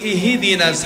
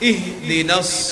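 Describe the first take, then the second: First: A short i vowel follows the h sound. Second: The h sound is closed with no vowel. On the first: The speaker calls it wrong. "হার নিয়ে জের বলি" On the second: The speaker calls it right. "হার উপর সাকিন জজম হবে"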